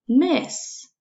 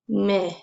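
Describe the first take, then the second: First: "miss" lifted high and rising. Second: Said in the usual way. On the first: Shown as a demonstration. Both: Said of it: "Mm, eh, s".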